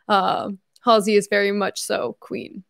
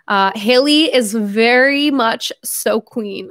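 First: "Halsey" said HAL-zee with a clear z; corrected name. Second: "Haley" said as HAY-lee, no s or z sound; misread name. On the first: Streamer rereads the superchat with "[name]" said right. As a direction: carefully reread it as "Halsey", fixing the slip. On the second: Streamer misreads a fan's superchat, saying "[name]". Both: Real, not acted. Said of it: "I said [name], didn't I?".

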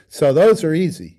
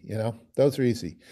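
First: "those" pushed higher and louder; emphatic. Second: Said in the usual way. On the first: Real, not acted. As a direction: lean hard on "those" to insist.

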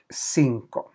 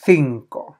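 First: Said in the usual way. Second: Cinco said as "thinco"; lisped C. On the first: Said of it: "som ett S-ljud eller ett läspljud". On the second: Shown as a demonstration. Teacher shows Spain's version, cinco with a lisped th. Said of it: "Och cinco säger man".

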